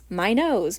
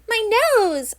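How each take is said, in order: First: It is said in a plain, neutral voice. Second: It is said in a whiny, complaining voice.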